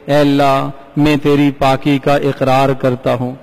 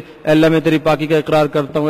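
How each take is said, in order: First: It is said slowly and humbly. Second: It is said fast and hurried.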